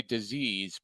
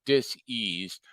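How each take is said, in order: First: Said in the usual way. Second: Dis-eased said as dis, then eased; split dis-eased. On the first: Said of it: "not necessarily disease". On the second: Shown as a demonstration. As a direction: break dis-eased into two parts, dis and eased. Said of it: "not necessarily disease, but dis-eased".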